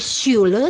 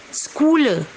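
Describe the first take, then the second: First: The word begins with an sh sound. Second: The word begins with a kh sound. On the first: The speaker calls it right. "C dan H harus dibaca S Y" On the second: The speaker calls it wrong. "kadang banyak orang membacanya Schule karena C H"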